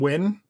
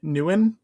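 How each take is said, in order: First: The name sounds like the plain word win. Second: The name sounds fuller, with an added opening sound. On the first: This is how the speaker always said the name. The speaker calls it wrong. "I had always pronounced Kevin's last name Win" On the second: This is how another person says the name. The speaker calls it right. "Evan keeps saying it Nguyen"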